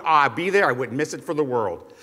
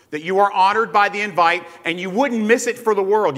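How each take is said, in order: First: Offhand, lower "wouldn't miss it for the world"; casual promise. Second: Said in the usual way. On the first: Retold or imitated. Preacher imitating a guest's casual promise to a host. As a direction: toss off the promise lightly, voice dropping. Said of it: "You ever said that to someone?".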